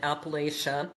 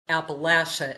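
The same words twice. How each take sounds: First: It is said in the outsider pronunciation. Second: It is said in the local regional pronunciation.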